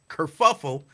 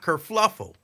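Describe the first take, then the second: First: The word has no L after the first F. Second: The word has an L after the first F. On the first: The speaker calls it right. "it's kerfuffle" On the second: The speaker calls it wrong. "not kerfluffle"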